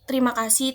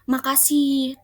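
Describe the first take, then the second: First: The phrase is said in full. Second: The phrase is said in a shortened form. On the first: This is the standard form. "tulisan bakunya itu terima kasih" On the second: This is the everyday non-standard form. "kadang kita mengucapkannya dengan kata makasih"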